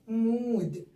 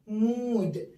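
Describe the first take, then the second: No difference in how they are said.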